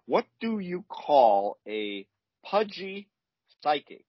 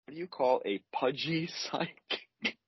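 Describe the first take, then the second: First: Slow, drawn-out joke setup; milk the riddle slowly for groans; telling a dad joke. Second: Riddle repeated, breaking into a laugh; telling a dad joke. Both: Shown as a demonstration. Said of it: "delivery is gonna be important here".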